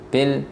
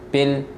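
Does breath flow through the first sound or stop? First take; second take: stops; stops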